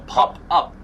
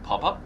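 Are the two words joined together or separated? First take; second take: separated; joined. First: The two words are split by a break. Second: The two words are run smoothly together. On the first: "Or pop, up" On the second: "Should we link the P and the U, like pop up?"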